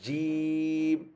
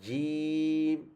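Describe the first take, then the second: No difference in how they are said.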